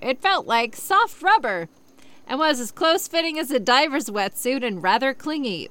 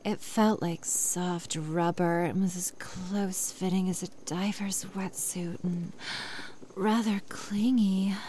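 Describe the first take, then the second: First: It is read in a plain voice. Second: It is read in a sexy voice.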